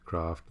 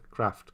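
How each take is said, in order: First: "Craft" with a long open ah, krahft; "Craft" long southern a. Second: "Craft" with a short flat a, kraft; "Craft" short northern a. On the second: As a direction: say "Craft" with the a of cat. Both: Shown as a demonstration.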